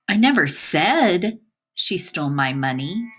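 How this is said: The word "said" carries the stress. It was conveyed in some other way. "By emphasizing the word said"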